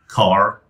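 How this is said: The final R sound is pronounced. "in American English, where you would normally say"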